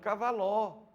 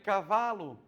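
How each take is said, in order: First: The stress is on the third syllable. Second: The stress is on the second syllable. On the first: The speaker calls it wrong. "A outra, cavaló" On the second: The speaker calls it right. "Aqui na número dois tem cavalo"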